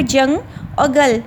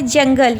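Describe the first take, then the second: First: "जंग" and "गल" as two separate pieces; syllable by syllable. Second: Said in the usual way. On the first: Shown as a demonstration. Teacher counting two syllables, "जंग" and "गल" said apart. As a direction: split the word into "जंग", pause, "गल". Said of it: "दो आपके syllables आ गए". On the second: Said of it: "two syllable हो गए".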